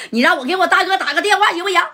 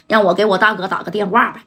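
First: High, fast, laughing plea; frightened thug begging to phone his big brother; pleading. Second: Said in the usual way. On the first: Acted. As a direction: wheedle desperately, voice pitched up. Hubao begs to call his boss.

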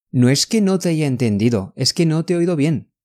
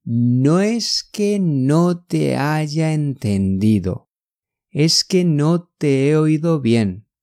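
First: Quick, fluent run without hesitation; natural rapid-fire delivery; all at once. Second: Very slow, drawn-out syllables; unhurried teaching pace; slow demonstration. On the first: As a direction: say it in one fast breath. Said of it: "这个要一下子". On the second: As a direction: take it word by word for learners. Slow contrast take for learners. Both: Shown as a demonstration.

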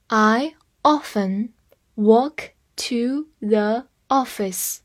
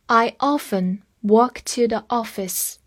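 First: I often walk to the office, each word drawn out slowly; slow reading. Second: Said in the usual way. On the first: Shown as a demonstration. Teacher reads the example slowly for students. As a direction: read it slowly so learners can follow. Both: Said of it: "我们慢慢来读一遍".

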